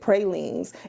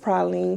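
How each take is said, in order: First: It is said with the Texas pronunciation. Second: It is said with the New Orleans pronunciation. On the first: "we're from Texas and we pronounce it pralines" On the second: "That's how we say it in New Orleans"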